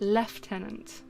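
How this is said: The first syllable has an f sound. "to say it correctly in British English, it is actually lieutenant"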